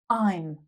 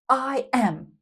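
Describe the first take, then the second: First: The words merge into one short syllable. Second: Two separate full words are said.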